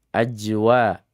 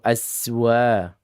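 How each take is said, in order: First: The middle consonant is a j sound. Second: The middle consonant is an s sound. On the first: "Az, bukan aj" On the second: "Ajwa atau aswa"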